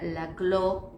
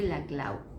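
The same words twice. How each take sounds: First: The name is pronounced in a French way. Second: The name is pronounced in a Catalan way. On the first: The speaker calls it wrong. "él no era Laclau porque su apellido no, no era de origen francés" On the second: The speaker calls it right. "él corregía, decía yo soy Laclau"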